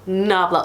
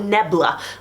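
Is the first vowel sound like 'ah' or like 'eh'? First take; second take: ah; eh. First: The first vowel sounds like 'ah'. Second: The first vowel sounds like 'eh'. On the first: The speaker calls it right. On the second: The speaker calls it wrong.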